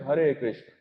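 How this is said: It is said with a native Indian pronunciation. Indians say it this way. "हम क्या बोलते हैं?"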